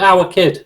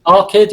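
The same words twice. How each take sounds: First: Said in the usual way. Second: Put-on "Our kid" run together as "ar kid"; Scouse pronunciation. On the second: Shown as a demonstration. Repeating the nickname for co-host, "Our kid" as Scouse "ar kid".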